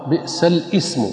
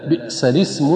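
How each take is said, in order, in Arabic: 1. الكلمة الثانية تبدأ بالهمزة. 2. الكلمة الثانية تبدأ بـ l وبعدها i. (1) "حيث ينطق بالهمز" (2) "تحريك اللام بالكسر"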